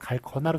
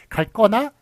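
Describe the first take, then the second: First: The ending starts with a plain consonant. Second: The ending starts with a tense consonant. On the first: This is how it is written. "쓰는 건" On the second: This is how it is normally spoken. "이런 식으로 발음을 합니다만"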